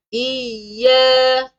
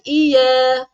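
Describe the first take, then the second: First: "Iya" high, leaning long on the doubled y; pressed doubling. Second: "iya" with a single, unpressed y; missing doubling. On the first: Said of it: "sabdu ni kena tekan". (tekan sabdu pada "Iya") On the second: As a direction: glide through "iya" without pressing y. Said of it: "Bukan iya". (baca "iya" tanpa tekan sabdu) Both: Shown as a demonstration.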